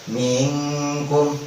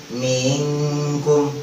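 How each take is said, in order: The two takes are said the same way.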